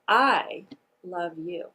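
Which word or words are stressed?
I. The emphasis falls on the word I. "The first word that I'm going to emphasize is the word I"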